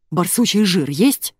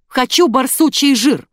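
First: Slow, slightly breathless question; out of breath. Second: Loud, high, slow insistent demand; barked demand. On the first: Woman who just burst into the pharmacy, out of breath. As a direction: ask as if just rushed in. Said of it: "запыхавшимся голосом сказала". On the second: Rude customer demanding badger fat, barking. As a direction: bark out each word. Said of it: "рявкнула мадам". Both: A narrator's reading.

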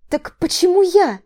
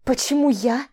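First: Громко и выше, с нажимом на «я»; переспроси, требуя ответа; настойчивый вопрос. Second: Сиплый сдавленный вопрос под тяжестью; выдави слова, придавленная чужой рукой; сипло. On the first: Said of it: "Поинтересовалась я". (напористо переспрашивает) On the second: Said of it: "Просипела я под тяжестью". (сипит, зажатая под мышкой) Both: Acted.

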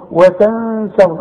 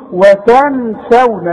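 First: Slow "وتنسون" with the n held as a hum; hidden nasalised noon. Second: "وتنسون" with the n sounded out plainly, drawn out; wrong clear noon. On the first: Teacher shows the correct way, nasal hidden noon. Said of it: "نخفي ونغن". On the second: Teacher shows what not to say, clear noon. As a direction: slowly say "وتنسون" with a clear, unhidden n. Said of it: "وقلنا ما نقولش". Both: Shown as a demonstration.

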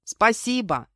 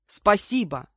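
First: Raised, louder thanks called back; yelled reply. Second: Sincere, grateful falling tone; heartfelt thanks. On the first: Guest in the bath answering his host, calling out. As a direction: call the thanks back through the door. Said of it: "заорал в ответ Денис". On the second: Guest thanking his host for towel and shower, heartfelt. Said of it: "от души поблагодарил меня". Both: A narrator's reading.

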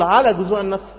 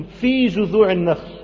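First: Everyday explaining voice, light stress on على; expected wording with على. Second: Slow recitation with في drawn out and leaning forward; stress on في. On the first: Preacher gives the expected wording, light stress on على. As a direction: point up على at normal speed. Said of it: "المفروض يقول". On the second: Preacher highlights Pharaoh's odd wording, stress on في. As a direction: stretch and stress the word في. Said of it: "المفروض يقول على جذوع النخل". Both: Shown as a demonstration.

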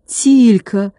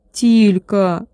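First: Gasp. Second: Said in the usual way. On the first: A narrator's reading. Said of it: "ахнул Владик".

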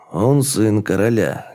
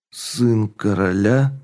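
First: Said in the usual way. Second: Slow, weak, questioning; weakened voice. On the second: A narrator's reading. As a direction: ask it weakly in disbelief. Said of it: "Дерек перебил ослабевшим голосом".

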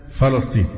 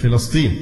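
First: فلسطين with short a after the f; common pronunciation. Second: فلسطين with short i after the f; standard pronunciation. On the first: Teacher quoting what everyone says, فلسطين said fa-lasteen. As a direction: say فلسطين as fa-las-TEEN, a in the first syllable. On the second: Teacher giving the standard form, فلسطين said fi-lasteen. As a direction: say فلسطين as fi-las-TEEN, i in the first syllable. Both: Shown as a demonstration. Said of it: "كله بيقولها".

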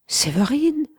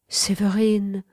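First: A high, frightened cry of the name; startled cry. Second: Gentle. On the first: Mistress waking to find her lover weeping, frightened cry. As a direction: call out the name, startled and scared. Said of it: "s'écria-t-elle, plus effrayée que colère". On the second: Mistress gently calling to her weeping lover. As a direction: say the name tenderly, gently. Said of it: "continua-t-elle doucement". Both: A narrator's reading.

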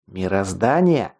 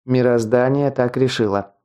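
First: Slow, incredulous echo in restrained anger; angry cry. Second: Calm, even statement with a falling end; calm verdict. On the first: Teacher challenging the guard's excuse, restrained angry cry. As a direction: throw the word back angrily, drawn out, no shout. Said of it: "зло крикнул Скелл". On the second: Chief guard justifying the deaths to the teacher, calm. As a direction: state it as settled, unruffled. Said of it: "спокойно ответил главный страж". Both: A narrator's reading.

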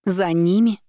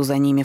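First: Startled, rising question; за ними cried out high with a sharp rise; exclaimed. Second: Said in the usual way. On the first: Acted. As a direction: throw the words back in disbelief. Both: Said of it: "вскричала я".

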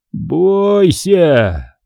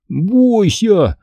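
First: Raised, drawn-out ominous warning, fully voiced. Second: Mocking imitation, pitched high; hammed-up spooky warning; Амг. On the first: Man warning the children, ominous. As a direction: stretch out the threat. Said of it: "прошептал он". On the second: Boy mimicking the man for friends, mocking. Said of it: "очень похоже, передразнил мистера Амга". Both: A narrator's reading.

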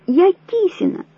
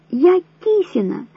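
First: High frantic insistence on я; woman insisting on her name, hysterical, high; hysterical cry. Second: Slow, high, each word forced out; same words again, slower, stubborn and desperate; slower hysterical cry. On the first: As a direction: scream that you are Kisina. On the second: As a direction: repeat it slowly, desperate. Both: A narrator's reading. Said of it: "истерично закричала Вера".

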